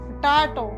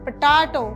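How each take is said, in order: No difference in how they are said.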